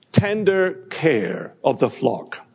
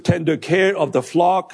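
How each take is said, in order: First: "Tender care of the flock" slowed, leaning on "tender"; slow emphatic repeat. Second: Said in the usual way. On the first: Shown as a demonstration. Preacher repeating the point to the congregation, "tender" stressed slowly. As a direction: dwell on "tender" and let the phrase fall.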